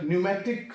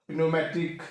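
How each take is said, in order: First: Pneumatic said as "newmatic", no p; silent P. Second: Pneumatic said as "pi-neumatic", p pronounced; sounded P. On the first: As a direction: drop the P in pneumatic. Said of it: "that is P". (pneumatic में P silent) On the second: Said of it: "Why we not call". (pneumatic में P बोलकर) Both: Shown as a demonstration.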